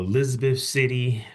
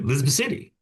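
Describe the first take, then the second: First: It is said slowly and carefully. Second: It is said quickly and run together. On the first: It is said so outsiders can understand. "I had to slow down the pronunciation of all of these names" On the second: It is how the locals say it. "we all say Elizabeth City"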